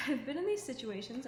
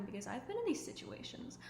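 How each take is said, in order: First: Louder, with a laugh, stress on "these"; emphatic repeat. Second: Said in the usual way. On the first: Real, not acted. Admitting to viewers she lived it too, a louder laughing repeat. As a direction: land it again with a rueful laugh.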